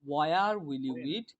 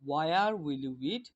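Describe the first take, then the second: The two takes are said the same way.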